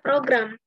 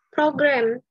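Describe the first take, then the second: First: The word is said with an Indonesian pronunciation. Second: The word is said with an English pronunciation.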